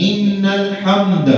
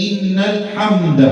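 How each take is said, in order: The two takes are said the same way.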